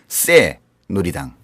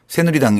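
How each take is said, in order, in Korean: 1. 첫 소리는 힘을 준 경음 s입니다. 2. 첫 소리는 부드러운 평음 s입니다. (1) "진짜 세요" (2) "새누리당 이러면 이제 그 당을 잘 설명 못해요"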